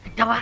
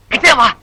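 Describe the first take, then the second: First: Quiet summons. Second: Full-voiced, insistent beckoning; firm summons. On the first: Acted. Teacher calling the erring pupil closer, hushed summons. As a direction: beckon softly, keeping it down. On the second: Teacher insisting the erring pupil come closer, firm and audible. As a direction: order him closer in full voice. Teacher repeats the call, louder.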